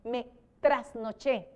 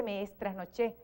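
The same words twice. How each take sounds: First: Me trasnoché said slowly and carefully, no extra S; correct form. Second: Me trasnoché with an extra S, like me estrasnoché, said softer; the incorrect me trasnoché; wrong form. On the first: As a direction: spell out the right me trasnoché. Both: Shown as a demonstration. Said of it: "No se dice".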